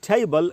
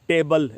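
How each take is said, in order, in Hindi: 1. t महाप्राण है, हवा का एक झोंका निकलता है। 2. t अल्पप्राण है, हवा का झोंका नहीं निकलता। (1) "हमको बोलना चाहिए टेबल" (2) "न कि टेबल"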